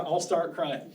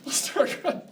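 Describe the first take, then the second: First: Said in the usual way. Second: High, whispered fake sob; laughing mock sob; mock crying. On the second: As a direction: pretend to blubber through a laugh. Mock crying in retold reply.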